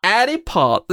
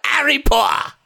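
First: Higher, half-hearted British accent; attempted British accent. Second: British accent. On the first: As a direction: copy a British accent, not quite getting it. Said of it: "I don't think I can do a British accent". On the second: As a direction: cry it out in a mock British accent. Demonstrates a British accent to coax partner. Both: Shown as a demonstration.

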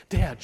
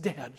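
First: Sharp, raised, louder call; tense, higher-pitched child's appeal; hissed. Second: Softer, mildly tearful appeal; understated sorrowful child, falling away; wept. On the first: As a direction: hiss it urgently to a parent. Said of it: "she hissed". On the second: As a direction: say it with a touch of weeping. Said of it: "she wept". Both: A narrator's reading.

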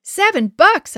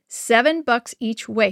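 First: High, loud burst of disbelief; shocked gasp. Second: Slow, understated snap from dad; a touch of curtness, measured out slowly; snapped. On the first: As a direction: gasp it out, aghast at the price. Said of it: "I gasped". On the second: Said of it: "he snapped". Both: A narrator's reading.

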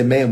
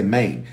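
First: Said in the usual way. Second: "Maine" for man, in Memphis speech; Memphis accent. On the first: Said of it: "we don't say man". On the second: Shown as a demonstration. Showing how Memphis people say man, Memphis accent. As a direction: say "Maine" with a Memphis long-a vowel. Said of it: "we say Maine".

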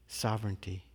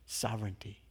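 First: Said in the usual way. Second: Soft echo. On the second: Shown as a demonstration. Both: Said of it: "the words just keep echoing in this space".

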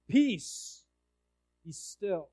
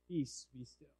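First: A mild, raised call on peace, fading on be still; a half shouted command to the sea. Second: Soft low whisper of the command; hushed, barely voiced peace be still. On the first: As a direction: call out peace, then let it drop. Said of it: "And he shouts". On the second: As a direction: breathe it like a still small voice. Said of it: "was it a whisper? ... still, small voice". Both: Shown as a demonstration.

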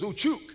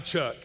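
First: High-pitched "Chuck" in a mock Hispanic accent; playful Hispanic-accented imitation; imitated Hispanic accent. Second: Said in the usual way. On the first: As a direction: echo "Chuck" as a Hispanic speaker would. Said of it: "The guy's Hispanic".

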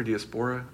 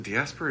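First: "diaspora" tried the other way, questioning; alternative pronunciation. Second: "diaspora" tried one way, unsure; first pronunciation offered. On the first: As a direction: offer "diaspora" as the second, contrasting pronunciation. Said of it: "I can't ever, I never know". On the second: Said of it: "is it diaspora or diaspora". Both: Shown as a demonstration.

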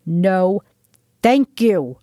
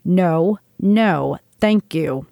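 First: A contained narrated roar; mild roar. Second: Said in the usual way. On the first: A narrator's reading. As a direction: push the words out firmly. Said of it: "pushed him into the opposing wall of the corridor and roared".

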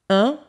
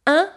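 First: "un" said as in "lundi"; isolated "un" with rounded lips, through the nose; rounded nasal vowel. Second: "un" said as the nasal in "vin"; isolated "un" with unrounded lips, as in "matin"; front nasal vowel. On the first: Teacher shows the second of two nasals, "un" as in "lundi". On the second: Teacher shows the first of two nasals, "un" as in "vin". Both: Shown as a demonstration. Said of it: "the difference between".

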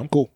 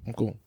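First: Said in the usual way. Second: "I'm cool" dropped lower and much softer, smooth; smooth neutral voice. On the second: Shown as a demonstration. Demonstrating the voice that hides his race, low and soft. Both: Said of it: "I got the good voice down".

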